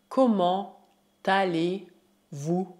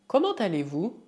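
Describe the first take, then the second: First: Slow, separated chunks; word by word. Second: Said in the usual way. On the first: Shown as a demonstration. Teacher models French greeting question, slow word by word. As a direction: stretch the greeting out for repetition.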